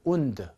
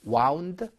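First: "wound" with a long oo vowel; wound as "oond". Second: "wound" as waund; wound rhyming with found. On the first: Teacher recites the verb meaning injure, "wound" as oond. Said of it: "이렇게 읽습니다". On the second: Teacher recites the past of wind, "wound" with ow. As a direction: say "wound" with an ow vowel. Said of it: "이렇게 여러분들이 아셔야". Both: Shown as a demonstration.

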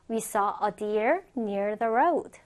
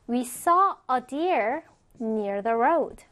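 First: Said in the usual way. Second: Slow, with a break after "deer"; measured, carefully separated phrases; slow model reading. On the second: Shown as a demonstration. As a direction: read it out slowly for learners. Teacher's first, slower model reading.

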